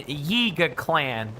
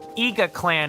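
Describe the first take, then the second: First: The first word starts with a clear Y sound. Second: The first word starts without any Y sound. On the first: The speaker calls it right. "Gotta really pronounce that Y in Yiga Clan" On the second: The speaker calls it wrong. "my mouth might just stick together in a way that might make it sound like Iga Clan instead"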